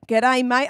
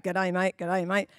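First: Put-on a light Aussie accent, slightly louder; mock Australian twang on G'day, mate; Aussie greeting. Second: Lower, softer, rehearsing G'day, mate to yourself; practising under breath. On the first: New citizens imitating Aussies, in a light Australian accent. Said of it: "talk like you Aussies". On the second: Retold or imitated. New citizen quietly practising the greeting, lower and softer. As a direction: mutter it like practice, low and soft. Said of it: "they probably prac".

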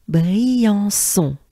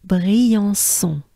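First: "Briançon" said louder, French R and nasals. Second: "Briançon" with a breathy French R and nasal endings; full Briançon. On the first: Teacher leading the group take. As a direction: say "Briançon" together, with a breath first. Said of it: "let's go together ensemble". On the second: Teacher giving the full town name. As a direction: put the whole "Briançon" together. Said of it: "as a whole". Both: Shown as a demonstration.

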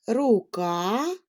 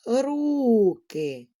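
First: Рука with a rising, stressed final КА; stress on last syllable. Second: Руки with a long stressed first syllable РУ. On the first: Teacher showing children shifting stress, рука stressed on КА. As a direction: lean on the КА in рука. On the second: Teacher showing children shifting stress, руки stressed on РУ. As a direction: stretch the РУ in руки, let the ending fall. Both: Shown as a demonstration. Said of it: "щоб наголос у слові змінював".

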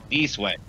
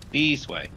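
First: Said in the usual way. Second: Called out higher, insistent; calling out. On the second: Real, not acted. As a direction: call him over urgently. Repeating louder, higher to lost friend.

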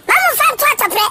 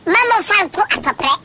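First: Higher, pressing repeat of the plea; urging the party with more force the second time; emphatic repeat. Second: Said in the usual way. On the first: Real, not acted. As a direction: drive the plea home.

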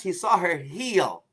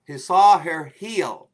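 First: Slow, weighty telling of the moment; slow emphasis. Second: Very slow and louder, every word stressed; drawn-out, louder repeat of "he saw her heel"; repeated with emphasis. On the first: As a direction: let each word land slowly. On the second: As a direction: hammer home "he saw her heel" slowly and loudly. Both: Shown as a demonstration. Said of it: "I repeat".

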